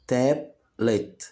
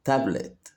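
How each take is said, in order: First: "tablet" broken as tab, pause, let; split into syllables. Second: Said in the usual way. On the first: Shown as a demonstration. Teacher showing children two syllables, "tablet" split in two. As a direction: say "tablet" in two separate beats. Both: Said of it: "فيها مقطعين صوتيين".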